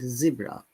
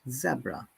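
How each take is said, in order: First: The word is said in an American accent. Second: The word is said in a British accent. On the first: "the U S and Canada they pronounce it zebra" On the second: "in British English we pronounce it zebra"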